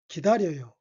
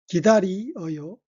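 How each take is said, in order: First: The vowels blend together into one syllable, ryeo. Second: The vowels i and eo are pronounced separately.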